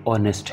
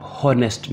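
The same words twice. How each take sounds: First: ऑनेस्ट said starting straight on the vowel, no h; silent h. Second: हॉनेस्ट with a clear h sound at the start; wrong pronunciation demo. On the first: Teacher gives students the correct way, silent h. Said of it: "ये ऑनेस्ट है". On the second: Teacher warns students against the wrong way, h sounded. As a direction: pronounce हॉनेस्ट with the h sounded, as the mistake. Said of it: "इसको आप हॉनेस्ट नहीं पढ़ेंगे". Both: Shown as a demonstration.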